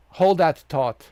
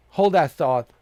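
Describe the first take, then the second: No difference in how they are said.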